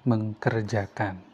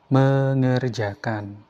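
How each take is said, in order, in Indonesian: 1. Bunyi k setelah awalan dipertahankan. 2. Bunyi k setelah awalan dihilangkan. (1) "bukan mengkerjakan" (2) "dia penyebutannya menjadi mengerjakan"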